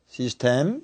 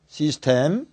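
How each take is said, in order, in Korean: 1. 한국어 외래어 음절로 고르게 발음됩니다. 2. 한국어 외래어 음절로 고르게 발음됩니다.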